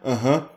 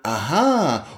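First: It sounds dismissive and slightly sarcastic. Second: It sounds suddenly very interested.

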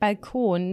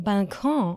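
First: The word ends with a plain n sound. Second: The word ends with a French nasal vowel. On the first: "aber meistens sage ich Balkon" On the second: "man könnte auch Französisch sagen, so Balkon"

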